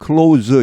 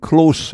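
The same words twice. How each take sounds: First: The word ends with a voiced z sound. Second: The word ends with a voiceless s sound. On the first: It is a verb or a noun. "뒤에 S발음이 유성음으로 z 이렇게 됩니다" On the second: It is an adjective. "무성음으로 발음됩니다"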